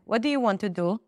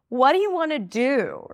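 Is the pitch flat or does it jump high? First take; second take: flat; jumps high. First: The pitch stays flat throughout the question. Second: The pitch jumps high within the question. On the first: "I'll use my Israeli accent" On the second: "it's really strange to all of a sudden go high in pitch"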